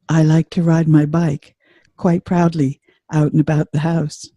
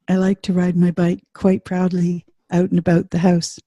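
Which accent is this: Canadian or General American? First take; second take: General American; Canadian. First: A General American accent, resonant in the chest. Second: A Canadian accent, rising, with facial resonance. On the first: "here's general American" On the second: "here's Canadian"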